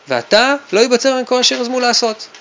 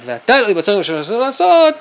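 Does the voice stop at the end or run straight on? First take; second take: stops; runs on. First: The voice comes to a stop at the end. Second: The voice runs straight on without stopping. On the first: What comes next is still open. The speaker calls it right. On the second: The story's continuation is already known. The speaker calls it wrong.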